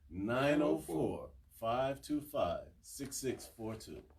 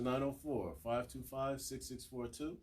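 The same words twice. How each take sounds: First: The number is said slowly. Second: The number is said quickly.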